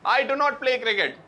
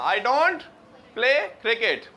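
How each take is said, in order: First: It is said with 'do not' in full. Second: It is said with the contraction 'don't'. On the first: It sounds old-fashioned. The speaker calls it wrong. "पुरानी English, डू नॉट नहीं" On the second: It sounds modern. The speaker calls it right. "मिला के मिला के हाँ"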